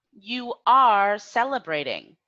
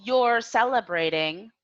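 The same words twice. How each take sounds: First: "You are celebrating" with a loud, stressed ARE; full form, spelled out. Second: "You're celebrating" with "You're" as one syllable, rising end; contracted form example. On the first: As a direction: punch "are" in "You are celebrating", falling at the end. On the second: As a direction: model the contraction "You're celebrating", pitched a little high. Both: Shown as a demonstration. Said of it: "using the present continuous verb tense".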